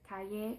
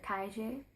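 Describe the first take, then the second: First: The ll sounds like a plain y. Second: The ll sounds like a soft j.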